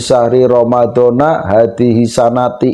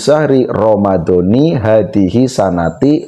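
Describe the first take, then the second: First: Ramadan ends in a, sanat ends in i. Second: Both Ramadan and sanat end in an i vowel. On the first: The speaker calls it wrong. "itu tidak boleh" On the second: The speaker calls it right. "Lafadz Ramadan ini dibaca kasroh"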